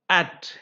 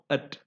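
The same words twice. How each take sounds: First: The word is said in its full form. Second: The word is said in its reduced form.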